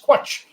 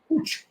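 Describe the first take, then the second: First: The word starts with a 'kw' sound. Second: The word starts with a plain 'k' sound. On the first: This was a first guess from the spelling. The speaker calls it wrong. "I assumed it was Quatch" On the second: This is how a Welsh speaker says it. The speaker calls it right. "I was corrected by a Welsh person and said"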